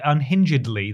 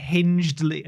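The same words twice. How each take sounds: First: "unhingedly" with -ed- sounded separately; four-syllable pronunciation. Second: "unhingedly" with -hinged- as one syllable; three-syllable pronunciation. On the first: Podcaster correcting an invented word, "unhingedly" as un-hin-juhd-lee. Retrying coined adverb with extra syllable. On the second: Podcaster reaching for a word to describe the trailer, "unhingedly" as un-hinjd-lee. Trying two pronunciations of coined adverb. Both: Real, not acted.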